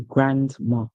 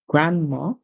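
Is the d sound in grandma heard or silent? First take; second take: heard; silent. First: The d sound in the middle is pronounced. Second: The d sound in the middle is dropped. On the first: "while the British would say grandma" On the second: "the Americans would say grandma. So you would not hear the do sound"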